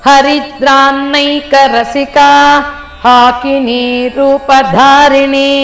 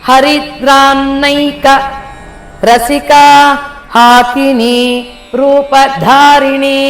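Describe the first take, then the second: No difference in how they are said.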